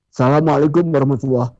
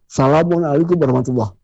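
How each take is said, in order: Both takes have the same delivery.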